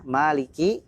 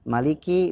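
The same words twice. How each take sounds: First: The vowel after the m is held long. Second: The vowel after the m is kept short.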